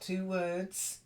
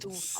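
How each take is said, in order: First: It sounds like two separate words. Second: It sounds like one single word. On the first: The speaker calls it wrong. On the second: The speaker calls it right.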